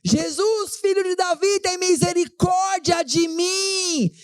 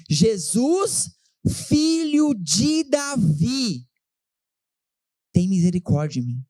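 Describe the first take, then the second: First: High, shouted cry for mercy, "misericórdia" stretched out slowly; desperate shout. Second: Slow, stretched plea to Jesus, not yet shouted; drawn-out plea. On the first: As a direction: yell "filho de Davi" high above the crowd. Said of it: "E aí ele começa a gritar". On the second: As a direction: blind beggar's slow, held-back cry for mercy. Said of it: "olha como ele grita". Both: Acted.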